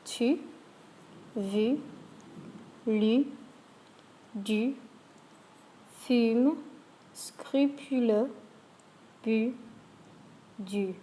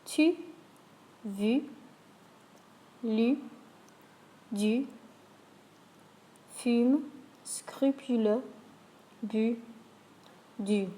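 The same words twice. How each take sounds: First: Spaced, clear list, "scrupuleux" slowed; French words with u. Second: A careful repeat, "scrupuleux" said slowly; French words with u. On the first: Teacher reads the u words for practice. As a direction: say "Tu", "vu", "lu" with a pursed u. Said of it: "Let's try these words". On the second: Teacher runs the u list a second time. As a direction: repeat "fume", "bu", "du" with a sharp u. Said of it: "one more time". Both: Shown as a demonstration.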